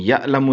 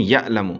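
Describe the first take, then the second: First: یعلم with a throaty ain after the ya; ain pronunciation. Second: یعلم with a glottal catch after the ya; hamza for ain. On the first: Teacher shows the reading most people skip, ain in یعلم. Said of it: "اکثریت یہ نہیں پڑھتی". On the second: Teacher shows the common mistake, hamza catch in یعلم. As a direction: cut the ya short with a hamza jerk in یعلم. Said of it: "ہم کرتے ہیں". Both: Shown as a demonstration.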